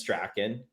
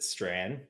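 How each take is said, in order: First: The name is said in the Scottish way. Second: The name is said in the family's short way. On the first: "The proper Scottish pronunciation is Strachan" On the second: "My family pronounces it Strand, which is like just ignoring a whole pile of letters"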